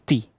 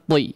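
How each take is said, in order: First: The t sound is light and not thickened. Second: The t sound is heavy and thickened. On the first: The speaker calls it right. "Di sini juga menggunakan huruf ta ya" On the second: The speaker calls it wrong. "Jangan ti ya. Jangan ditebalkan"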